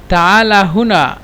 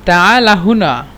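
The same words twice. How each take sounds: The two takes are said the same way.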